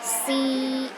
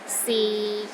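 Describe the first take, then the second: First: The pitch is high and steady. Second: The pitch stays low and steady. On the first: "The first tone is high and steady" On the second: "low and steady, but not as low as the fourth tone"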